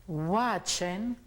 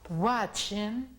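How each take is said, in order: No difference in how they are said.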